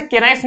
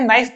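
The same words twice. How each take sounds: First: "के नाइफ" with the K sounded, "kay-naif"; mispronounced knife. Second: "नाइफ" said "naif", starting on N; silent K. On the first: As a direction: voice the silent K before "नाइफ". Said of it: "तो उसे के नाइफ नहीं पढ़ते हैं". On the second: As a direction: drop the K of knife, just "नाइफ". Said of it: "because के silent होता है". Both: Shown as a demonstration.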